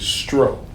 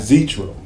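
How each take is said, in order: First: The name begins with an s-sound, one syllable. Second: The name begins with a z-sound and an extra vowel. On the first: The speaker calls it right. "It is Stro" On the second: The speaker calls it wrong. "It's not Zetro"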